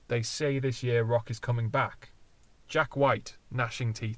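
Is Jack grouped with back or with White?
with White. The pause comes before Jack, joining Jack White. It names a particular musician. "is that a deliberate [name] name drop"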